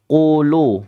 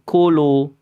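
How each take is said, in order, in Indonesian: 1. Konsonan pertama tebal, diucapkan dalam dan terangkat. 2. Konsonan pertama tipis, k ringan dan biasa. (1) "Tebal, tafkhim, isti'la, terangkat lidahnya" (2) "kalau kulu itu kaf"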